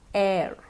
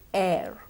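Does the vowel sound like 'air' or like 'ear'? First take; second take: air-like; air-like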